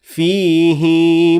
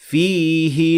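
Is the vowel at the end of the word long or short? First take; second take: long; short. First: The final vowel is lengthened. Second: The final vowel is short. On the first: "extending the kasra so long that it becomes a ya" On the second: "as a normal short vowel"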